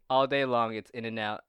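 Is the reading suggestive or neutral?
neutral. It is read in a plain, neutral tone. "in a non-sexual voice"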